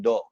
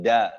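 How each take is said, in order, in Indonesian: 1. Vokal ini terdengar seperti o bulat. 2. Vokal ini terdengar seperti a terbuka. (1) "Jadi berubah menjadi do" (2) "Tapi da"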